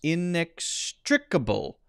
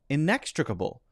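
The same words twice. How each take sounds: First: The stress is on the syllable trick. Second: The stress is on the syllable nex. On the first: The speaker calls it right. "the strict is stressed" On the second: The speaker calls it wrong. "They have the stress on neck"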